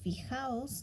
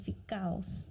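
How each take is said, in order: First: The middle consonant is a throaty H sound. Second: The middle consonant is a hard K sound. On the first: "instead of fijaos" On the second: "they will say ficaos"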